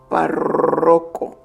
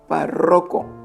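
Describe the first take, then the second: First: The emphasis falls on the R sound. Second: The stress is on the second syllable. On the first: "ponía todo el énfasis en la R" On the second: "me salía grave"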